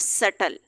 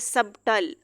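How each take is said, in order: First: No b sound comes before the t. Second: A b sound comes before the t. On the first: The speaker calls it right. "बी यहाँ पे silent हो जाएगा" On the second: The speaker calls it wrong. "हम इसको इस तरह नहीं कह सकते हैं"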